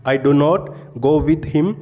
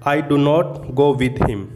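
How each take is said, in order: Both takes have the same delivery.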